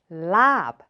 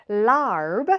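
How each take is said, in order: First: "lab" with a long open vowel and no R; Thai pronunciation. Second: "larb" with an English R; anglicized reading. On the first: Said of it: "in Thai is pronounced lab". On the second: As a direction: say "larb" with the R sounded. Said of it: "So larb in Thai". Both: Shown as a demonstration.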